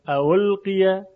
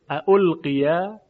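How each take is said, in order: First: The second hamza is softened toward a w sound. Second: Both hamzas are pronounced fully and clearly. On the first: "اگه خواستیم دومی رو تسهیل کنیم ... خیلی راحت تره" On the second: "این هر دو تحقیقه"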